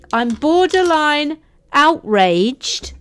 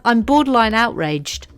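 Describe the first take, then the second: First: Slow, high, drawn-out indignation; mock outrage. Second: Said in the usual way. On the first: Host accused of an Australian accent, slow mock outrage. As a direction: stretch out "borderline outraged" with hammed-up offence.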